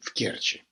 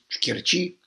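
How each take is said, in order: First: The stress is on the first syllable. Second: The stress is on the second syllable. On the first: It follows Ukrainian usage. "а по-украински в Керчи" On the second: It follows Russian usage. "По-русски правильно говорить в Керчи"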